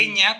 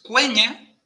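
First: "queña" with a plain k, no u sound; Spanish-style silent U. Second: "cueña" with the U fully sounded as a w; U sounded after Q. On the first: Host showing the Spanish reading to avoid, plain k demonstration. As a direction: drop the u in "queña", as Spanish reads it. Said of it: "como pronunciaríamos a la española". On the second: Host teaching that Q always keeps its U, clear demonstration. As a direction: say the u in "cueña", kw onset. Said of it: "siempre se pronuncia con U". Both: Shown as a demonstration.

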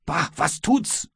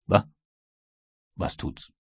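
First: Higher, slow, outraged mimicry of the reply; captain mockingly repeats the sailor's shrug, appalled; indignant echo. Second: Almost voiceless sneer, dismissive and unbothered; contemptuous. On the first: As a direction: throw the words back in disbelief. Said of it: "und du antwortest mir". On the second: Acted. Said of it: "lächelte nur verächtlich und sagte".

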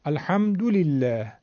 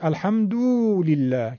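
First: Slow الحمدلله with "du" kept short; short damma. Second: الحمدلله with "du" wrongly stretched to "duu"; overlong damma. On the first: Teacher showing the damma, short "du" in الحمدلله. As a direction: say al-hamdu-lillah, no lengthening on "du". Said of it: "اگه بخواد بیشتر بشه". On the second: Teacher demonstrating a mistake, long "duu" in الحمدلله. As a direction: draw out the "oo" in al-hamduu-lillah. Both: Shown as a demonstration.

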